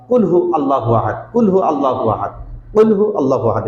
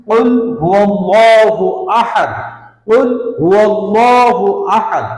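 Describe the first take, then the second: First: কুল হু আল্লাহু আহাদ with a short clipped হু, said plainly; common wrong reading. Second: Slow chanted কুল হুয়াল্লাহু আহাদ, হুয়া joined to আল্লাহু; higher, louder Quranic chant of কুল হুয়াল্লাহু আহাদ; correct recitation. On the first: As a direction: imitate the careless everyday recitation, হু cut short. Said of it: "এটা বলে থাকি". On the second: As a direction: recite it slowly and melodically, linking হুয়াল্লাহু. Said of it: "তো আমরা কিভাবে পড়বো?". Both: Shown as a demonstration.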